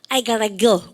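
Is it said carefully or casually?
casually. The words are run together casually.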